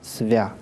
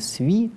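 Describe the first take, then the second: First: The vowel stays a fronted 'a' sound. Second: The vowel is reduced to an 'i' sound. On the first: The unstressed vowel keeps its quality. The speaker calls it right. "остается «свя»" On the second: The unstressed vowel undergoes ikanye. The speaker calls it wrong. "не «сви»"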